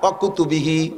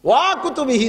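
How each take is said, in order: First: The first syllable is kept short. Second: The first syllable is drawn out long. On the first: The speaker calls it right. "ওয়ারেও টানবেন না" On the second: The speaker calls it wrong. "ওয়া ঠেলা দিলে আবার আবার ভুল হয়ে গেছে। ওয়া কুতুবিহি না"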